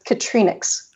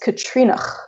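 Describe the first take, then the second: First: The name ends with an x sound. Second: The name ends with a throaty ch sound. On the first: This is how most people read the name. The speaker calls it wrong. "most people read it as Katrinix" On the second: This is the intended pronunciation of the name. The speaker calls it right. "it's actually pronounced Katrinach with a glottal ch at the end"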